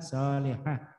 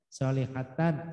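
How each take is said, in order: First: The word ends with an 'h' sound. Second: The word ends with a 'tan' sound. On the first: The reading stops on this word. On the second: The reading carries on without stopping.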